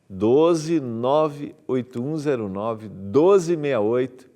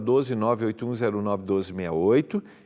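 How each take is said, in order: First: The number is read more slowly. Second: The number is read at normal speed.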